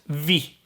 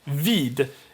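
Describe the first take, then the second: First: The final d sound is left out. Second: The final d sound is pronounced.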